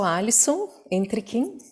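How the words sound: The name is said with a Brazilian Portuguese pronunciation. This is the version adopted in Brazil. "no Brasil eu adquiri essa outra pronúncia do meu nome"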